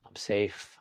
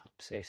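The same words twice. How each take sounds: First: Said in the usual way. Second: Much softer, sinking inward; soft repeated affirmation; fading to near silence. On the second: Shown as a demonstration. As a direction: let the repeat fade away. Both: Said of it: "repeat some simple word like that".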